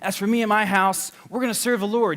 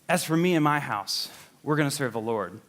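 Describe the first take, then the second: First: It is said in a triumphant, rah-rah way. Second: It is said in a plain, neutral way.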